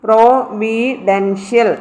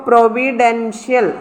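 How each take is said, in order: First: providential slowly with pauses between syllables. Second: Said in the usual way. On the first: Shown as a demonstration. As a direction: draw out providential one syllable at a time. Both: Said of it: "ഡിയുടെ മേളിലായിരുന്നു stress".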